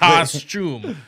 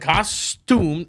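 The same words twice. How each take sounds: First: The second syllable sounds like 'shoom'. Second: The second syllable sounds like 'stoom'. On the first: "like shoom C S C H U" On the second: "S T O O M"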